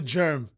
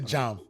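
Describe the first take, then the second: First: The vowel is the 'er' sound, as in 'germ'. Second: The vowel is the 'a' sound, as in 'jam'. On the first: This is the standard pronunciation. The speaker calls it right. "That's the pronunciation" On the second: This is the speaker's Nigerian pronunciation. The speaker calls it wrong. "I say jam"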